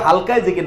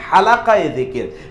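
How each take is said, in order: First: The first word is said as halka, two syllables. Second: The first word is said as halaqa, three syllables. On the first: The speaker calls it wrong. "মোজা হালকায় জিকির না" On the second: The speaker calls it right.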